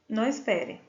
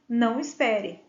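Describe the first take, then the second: No difference in how they are said.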